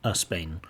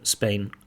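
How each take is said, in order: First: A short uh vowel comes before the S sound. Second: The word starts directly with the S sound.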